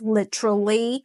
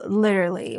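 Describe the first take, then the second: First: The T is pronounced as a clear T. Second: The T is softened into a D sound. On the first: "in British or Aussie English it's pronounced literally" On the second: "in American English the T kind of change it to like a duh sound"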